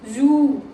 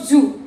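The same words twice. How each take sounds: First: The oo vowel is long. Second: The oo vowel is short. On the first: The speaker calls it right. "these are the difference for short oo and long oo" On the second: The speaker calls it wrong. "It's not zoo"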